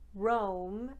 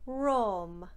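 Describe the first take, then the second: First: It is said in a plain English accent. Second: It is said in an Italian accent.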